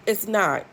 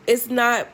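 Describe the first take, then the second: No difference in how they are said.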